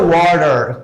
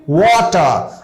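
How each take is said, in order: First: Relaxed "water", r-coloured ending; pronunciation after repetition. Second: "water" as WAW-tuh, clear t, no final r; falling, careful "water", WAW-tuh; model pronunciation. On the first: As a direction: say "water" with a tapped t and final r. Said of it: "कई बार आप pronounce करेंगे". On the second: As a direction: say "water" with a crisp t and silent r. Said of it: "Once again you repeat". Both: Shown as a demonstration.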